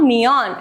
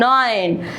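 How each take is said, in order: First: The vowel is split into two separate sounds. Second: The vowel is one gliding oi sound. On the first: The speaker calls it wrong. "it's not neon" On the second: The speaker calls it right. "it's nine"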